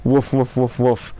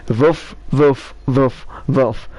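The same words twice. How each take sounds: First: Said in the usual way. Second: Woofs in a foreign accent, W turned to V; borrowed foreign accent. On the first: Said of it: "try it with my accent". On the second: Shown as a demonstration. Telling the dog joke for dogs to understand, foreign accent. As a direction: bark "woof" as "voof", accented. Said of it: "T-, try it with my accent".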